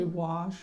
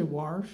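First: Said in the usual way. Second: "wash" with an R before the sh; regional pronunciation. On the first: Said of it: "You don't say wash?". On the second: Shown as a demonstration. Quizzing the audience on local speech, "wash" with an added R. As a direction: put an R into "wash". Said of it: "When I grew up, we said".

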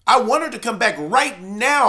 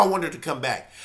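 First: Said in the usual way. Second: Soft echo. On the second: Real, not acted. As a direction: drop to a softer, lower repeat. Echoes own plea softly.

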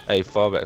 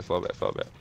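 First: Loud called-out order; shouting orders over battle. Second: Whispering the repeated command; whispered order. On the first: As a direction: shout fall back to the team. Calling orders to squad. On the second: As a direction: hiss it under your breath. Repeats order under breath. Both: Real, not acted.

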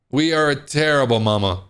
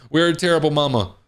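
First: "are" said in full and leaned on; stress on ARE. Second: Said in the usual way. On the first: Acted. Player owning up after losing Junior, stress on "are". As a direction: spell out "We are", weight on "are". Repeats the line, uncontracted for emphasis.

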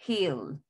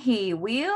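First: "he'll" as one lower falling syllable; short form. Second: "he will" as two words, rising at the end; long form. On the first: Teacher contrasts with full form, "he'll" contracted. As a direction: drop "he'll" down as a single word. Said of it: "en forma corta se pronuncia". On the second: Teacher says look, "he will" as two words. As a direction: say "he will" in full, lifting "will". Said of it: "forma larga". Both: Shown as a demonstration.

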